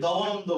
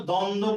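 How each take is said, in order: First: দবনন্দ with the b spoken separately; sounded b. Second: দ্বন্দ্ব as don-do, no b sound; silent b. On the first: Teacher offering a false literal reading, b sounded. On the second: Teacher offering the usual form, b left silent. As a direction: drop both b sounds in দ্বন্দ্ব. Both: Shown as a demonstration. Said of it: "দ্বন্দ্ব বলি নাকি দবনন্দ বলি".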